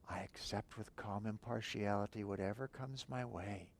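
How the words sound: It is spoken aloud in a quiet voice.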